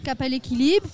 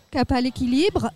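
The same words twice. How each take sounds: The two takes are said the same way.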